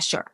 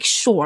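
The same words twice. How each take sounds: First: It is said in a sarcastic, dismissive tone. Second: It is said in a sincere, affirming tone. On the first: The speaker doesn't really care or agree. "sure was used for like sarcasm" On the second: The speaker genuinely agrees. "like what it actually means, which is like absolutely, yes"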